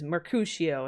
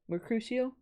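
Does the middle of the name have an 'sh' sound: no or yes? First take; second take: yes; no. First: The middle of the name has an 'sh' sound. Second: The middle of the name has no 'sh' sound. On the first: The speaker calls it right. "It's like a sh" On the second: The speaker calls it wrong. "Probably a really bad way to pronounce it"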